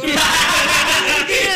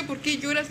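First: Drawn-out, very loud, high cry with laughter; exasperated mock wail. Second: Said in the usual way. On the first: Babysitter re-enacting her plea to a crying baby, hammed-up loud wail. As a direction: wail it out slowly in comic despair.

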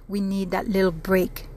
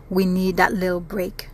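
The two takes are said the same way.

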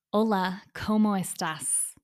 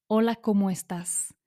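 First: Spanish with a heavy English accent, slower; strong English accent. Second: Said in the usual way. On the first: Shown as a demonstration. Learner showing how a marked accent sounds in Spanish, strong English accent. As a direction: say the Spanish with thick English vowels. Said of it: "con un acento muy fuerte y marcado". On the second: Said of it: "si en lugar de decir".

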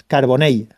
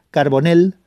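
First: Carbonell ending in a y glide, "car-bo-ney"; falling Carbonell, finished on "ney"; correct Valencian Carbonell. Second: Carbonell ending in a plain L, "car-bo-nel"; mispronounced Carbonell. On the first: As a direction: say the final ll of Carbonell as a y. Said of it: "así es como se tiene que pronunciar". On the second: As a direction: say the final ll of Carbonell as a simple l. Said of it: "no digáis más Carbonell". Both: Shown as a demonstration.

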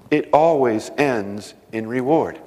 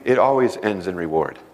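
First: "always" stressed, "It always ends in reward" said slowly; slow emphatic repeat. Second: Said in the usual way. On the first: Shown as a demonstration. Preacher driving the point home to the congregation, slow and emphatic. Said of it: "repeated slower". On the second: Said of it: "repeated line".

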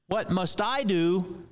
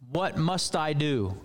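First: "What must I do?" with the weight on "I", slowed; stress on I. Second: "what must I do?" with the weight on "what"; stress on what. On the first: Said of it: "the emphasis is on the wrong syllable". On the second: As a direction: open hard on "what" in "what must I do?". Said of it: "we know this question is wrong". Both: Shown as a demonstration.

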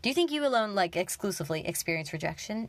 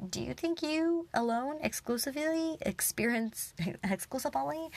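First: Firm retelling of dad's question; dad's retort. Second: Quoting dad, breaking into a laugh; giggling while imitating dad; laughing through the quote. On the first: Retold or imitated. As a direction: clean second take of dad's challenge. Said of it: "I can speak, I promise". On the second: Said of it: "he was like".

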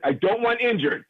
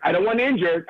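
First: Want punched and pitched higher; stress on want. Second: Said in the usual way. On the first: Real, not acted. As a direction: hit the word want hard. Repeats the point with emphasis.

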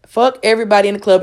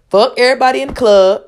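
First: Said in the usual way. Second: Higher, louder comedian impression; Katt Williams impression. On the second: Comedian swearing at everybody in the club, in an impression voice. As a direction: belt it out high like a stand-up comic. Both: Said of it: "in my best Cat Williams impression voice".

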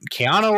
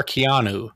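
First: Keanu, last syllable rhyming with "no"; Keanu ending in OH. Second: Keanu, last syllable rhyming with "new"; Keanu ending in OO. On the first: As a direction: say Keanu with a final "oh". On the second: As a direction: say Keanu with a final "oo". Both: Shown as a demonstration. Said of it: "How do you say it?".

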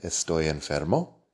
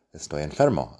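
First: Estoy enfermo with the pitch rising on enfermo; rising question on enfermo; question tune. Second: Estoy enfermo said with a falling statement tune; flat factual Estoy enfermo. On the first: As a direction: ask ¿Estoy enfermo? lifting the last word. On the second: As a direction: say Estoy enfermo as a plain fact, dropping at the end. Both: Shown as a demonstration. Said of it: "la entonación que le das con la voz".

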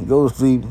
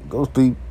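No difference in how they are said.

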